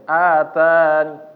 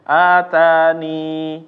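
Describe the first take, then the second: First: The word ends with only a faint brief i. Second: The word ends with a full long i vowel. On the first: "ada sedikit ninya tapi benar-benar sedikit" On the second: "membaca menetapkan ya, yaitu ya-nya ini menjadi huruf mat"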